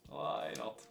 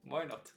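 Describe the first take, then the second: First: "Why not?" breathed out as a whisper; mock-defeated whisper of "Why not?"; sarcastic whisper. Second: Said in the usual way. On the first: Real, not acted. Sarcastic resignation, repeated.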